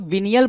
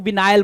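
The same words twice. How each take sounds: First: विनियल with a short i, VIN-ee-al; pronounced venial. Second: विनायल with a long "eye" in the middle; alternative pronunciation. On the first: Teacher showing how some people say it, विनियल with an "ee" middle. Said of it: "कुछ लोग विनियल बोलते हैं". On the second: Teacher showing how others say it, विनायल with an "eye" sound. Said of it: "कुछ लोग विनायल बोलते हैं". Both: Shown as a demonstration.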